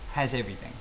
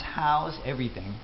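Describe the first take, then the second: First: The first word sounds like 'has'. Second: The first word sounds like 'how's'.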